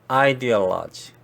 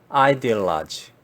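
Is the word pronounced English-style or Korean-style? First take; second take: English-style; English-style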